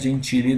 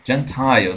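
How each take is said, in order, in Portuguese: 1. Ela é pronunciada como o sobrenome português. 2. Ela é pronunciada do jeito inglês. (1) "não é Gentile não, tá? Danilo Gentili, né? Parece" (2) "Gentile, tá vendo?"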